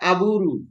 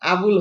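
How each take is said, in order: First: The name ends with a RU syllable. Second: The name ends with an L sound. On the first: "হয়ে যাবে আবুরু" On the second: "আবুল হয়ে যাবে"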